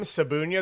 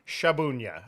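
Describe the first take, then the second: First: The name starts with a plain s sound. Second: The name starts with an sh sound. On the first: This is how the name is usually said at home. "There's a Z in there, so we don't kind of pronounce it" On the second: This is how the name is said in Poland. "when when I go over there, I'm Shabunia"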